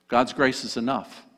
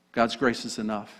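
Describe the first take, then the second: No difference in how they are said.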